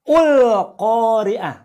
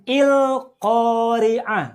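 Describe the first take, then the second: First: The word begins with a u vowel. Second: The word begins with an i vowel. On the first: "atau ul-Qari'ah" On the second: "bacanya bukan il-Qari'ah"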